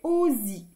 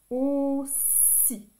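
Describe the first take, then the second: First: The middle consonant is a buzzing z sound. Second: The middle consonant is a hissing s sound. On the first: "Si je mets qu'un seul S ici, ça fait aussi" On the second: "Double S"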